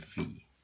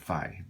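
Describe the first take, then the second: First: It rhymes with see. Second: It rhymes with eye. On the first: This is how Greeks say it. "Greeks say phi" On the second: This is the English way of saying it. "These are what we call English uh, pronunciations"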